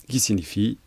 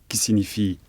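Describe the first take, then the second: Both takes have the same delivery.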